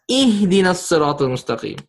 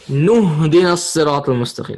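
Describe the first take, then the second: First: The opening vowel is pronounced, starting fresh with i. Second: The opening vowel is dropped, joined to the preceding word. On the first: The reciter stops before this verse. "if you're not going to join, then you pronounce it as" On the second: The verse is joined to the previous one without stopping. "If you rejoin this, the Hamzatul Wasl will get skipped"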